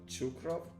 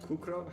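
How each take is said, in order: First: The name begins with a ch sound. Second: The name begins with a k sound. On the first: "So it's a ts, not a ch" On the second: "It's not Kukrov?"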